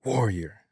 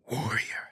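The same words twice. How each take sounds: First: Said in the usual way. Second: Breathy whisper, leaning in close. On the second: Retold or imitated. Father leaning in to his son, whispered. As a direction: whisper it to drive it home. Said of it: "leaned forward and said it to kinda reinforce it".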